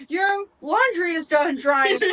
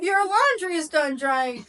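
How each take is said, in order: First: Slow, high Alexa announcement voice; cheerful talking appliance. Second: Slow high smart speaker voice; cheerful talking appliance. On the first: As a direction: mimic a smart speaker alert, slow and high. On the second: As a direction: chirp it like a home assistant. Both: Retold or imitated. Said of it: "my freaking Alexa will go".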